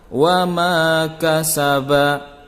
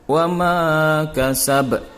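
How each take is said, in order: First: The final short vowel is pronounced. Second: The final short vowel is dropped. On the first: The reader does not stop here. "Itu dibaca tanpa waqaf" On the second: The reader stops at the end of the verse. "karena dia diwaqaf, maka menjadi"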